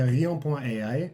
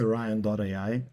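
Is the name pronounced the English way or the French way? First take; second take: French; English. First: The name is pronounced the French way. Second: The name is pronounced the English way. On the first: "c'est Rion point A I" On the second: "En anglais"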